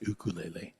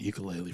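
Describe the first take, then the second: First: It is said in the traditional way. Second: It is said in the everyday English way. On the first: This is the proper pronunciation. "even though we know it's pronounced ukulele" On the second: This is the casual name for the instrument. "I'm going to just call it ukulele from this point out"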